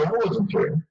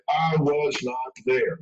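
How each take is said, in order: First: Said in the usual way. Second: Slow, stiff "I was not there", stress on "not"; a liar's deliberate, too-careful denial; over-emphatic liar. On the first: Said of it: "if they're not lying, they'll say". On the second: Shown as a demonstration. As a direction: drop the contraction and lean on "not". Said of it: "But if they're lying, they'll say".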